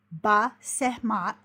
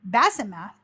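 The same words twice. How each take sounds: First: Ba Sehmat said slowly, as bah-SEH-maht; Ba Sehmat with the stress on SEH; Hebrew pronunciation. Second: Basemath said as BASS-eh-math; Basemath, the anglicised way; English pronunciation. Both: Shown as a demonstration.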